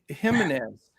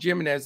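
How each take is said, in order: First: The name begins without a J sound. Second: The name begins with a J sound. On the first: The speaker calls it right. "no J" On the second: The speaker calls it wrong. "if you call him Jimenez"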